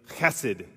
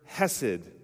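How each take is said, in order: First: The word begins with a raspy throat sound. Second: The word begins with a soft, plain h. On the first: The speaker calls it right. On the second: The speaker calls it wrong.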